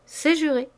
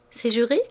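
First: C'est juré falling, settled and final; firm falling answer. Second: C'est juré rising at the end as a question; questioning tune. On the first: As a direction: close it off, C'est juré dropping down. Answering the sworn promise. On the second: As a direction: ask C'est juré, lifting juré. Asking for a sworn promise. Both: A narrator's reading.

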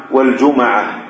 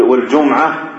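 First: والجمعة as "wal-juma'a", an a after the m; fatha on mim. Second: والجمعة as "wal-jum'a", m straight into 'ayn; jum-'a, no vowel on the mim of والجمعة; silent mim. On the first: Teacher contrasting allowed forms, والجمعة with fatha on mim. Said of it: "إسكان الميم وفتحها". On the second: Teacher contrasting allowed forms, والجمعة with sukun on mim. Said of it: "ويجوز فيه إسكان الميم". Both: Shown as a demonstration.

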